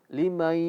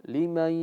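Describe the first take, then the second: The two takes are said the same way.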